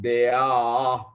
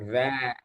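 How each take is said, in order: First: The word is split into two separate syllables. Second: The word is said as one smooth syllable. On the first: The speaker calls it wrong. "not they are. Don't say it like they are" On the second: The speaker calls it right. "It goes like there"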